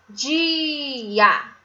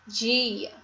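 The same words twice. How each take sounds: First: "dia" stretched to a long "diii-A"; syllable by syllable. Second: Said in the usual way. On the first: Shown as a demonstration. Teacher reading the written word to pupils, "dia" in long syllables. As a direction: hold the i of "dia", then land on a. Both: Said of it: "Vamos ver aqui a escrita".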